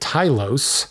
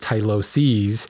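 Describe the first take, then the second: First: The word ends without a final extra syllable. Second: The word ends with an extra final syllable. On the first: The speaker calls it wrong. "I've been calling it Tylos, like T-Y-L-O-S-E-S, not pronouncing that less S" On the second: The speaker calls it right. "probably I should be referring to it as Tyloses"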